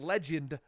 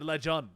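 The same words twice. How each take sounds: First: The second syllable has the vowel of 'end'. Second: The second syllable has the vowel of 'fun'. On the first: This is the usual pronunciation. The speaker calls it right. "instead of saying legend" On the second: This is how it was said as a child. The speaker calls it wrong. "I originally spelled it L E G U N D"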